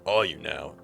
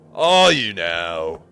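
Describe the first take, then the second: First: It is said at normal, quieter volume. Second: It is said noticeably louder.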